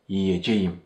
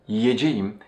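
Both takes have the same delivery.

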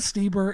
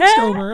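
First: The first vowel is an 'ee' sound. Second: The first vowel is not an 'ee' sound. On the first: The speaker calls it right. "Like it has two E's, basically" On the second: The speaker calls it wrong. "I was like Stuber, and that's wrong"

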